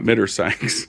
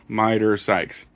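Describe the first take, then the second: First: The first syllable has a short 'ih' vowel. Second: The first syllable has a long 'eye' vowel. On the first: The speaker calls it wrong. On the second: The speaker calls it right. "that's how you pronounce it"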